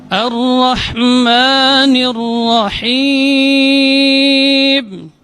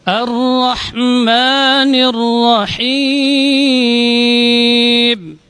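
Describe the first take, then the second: No difference in how they are said.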